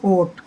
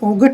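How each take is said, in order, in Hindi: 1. t से पहले कोई g की आवाज़ सुनाई नहीं देती। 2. t से पहले g की आवाज़ सुनाई देती है। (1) "जी एच साइलेंट रहता है" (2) "इसमें ओगट नहीं पढ़ते इसको"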